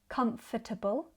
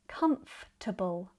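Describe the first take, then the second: First: The word is said with four syllables. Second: The word is said with three syllables. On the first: "Instead of comfortable" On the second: "I say comfortable"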